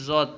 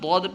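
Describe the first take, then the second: First: The letter name begins with a z sound. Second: The letter name begins with a d sound. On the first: This is how it is read in Urdu. "Urdu में ज़ौद पढ़ेंगे" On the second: This is how it is read in Arabic. "अरबी में दौद पढ़ते हैं"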